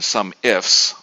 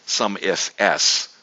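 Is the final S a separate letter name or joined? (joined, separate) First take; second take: joined; separate. First: The final S is joined into 'ifs'. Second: The final S is said as a separate letter.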